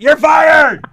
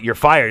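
First: It is yelled loudly and venomously. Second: It is said calmly, without force.

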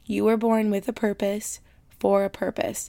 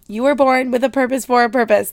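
First: It is said at normal volume. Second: It is yelled loudly.

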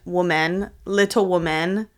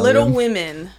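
First: The last word sounds like singular 'woman'. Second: The last word sounds like plural 'women'. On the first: The speaker calls it wrong. "I could never say that word, woman, little woman, like plural" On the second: The speaker calls it right. "is that how you say it? Women? Yeah"

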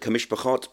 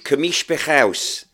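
First: The last syllable ends in a t sound. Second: The last syllable ends in an s sound. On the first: This is the modern Hebrew pronunciation. "the way I had to pronounce Kamishpachot in Ivrit, modern Ivrit" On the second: "but in Birmingham we pronounce it Kamishpachaus"

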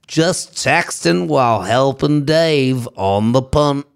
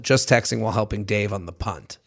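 First: It is said in a put-on Australian accent. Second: It is said in the speaker's ordinary accent. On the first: "Is that pretty good?" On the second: "I got to switch back"

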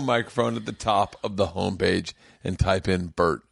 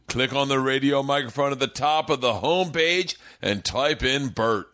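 First: It is slurred, like a drunk voice. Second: It is clearly articulated, like a sober voice.

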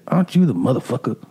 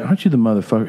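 First: It is said with dramatic, spicy flair. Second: It is said flatly, without flair.

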